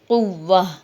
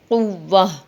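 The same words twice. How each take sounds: Both takes have the same delivery.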